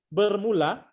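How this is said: It is pronounced with Malay vowels, ending in -a. This is how the word is written. "walaupun tertulis bermula"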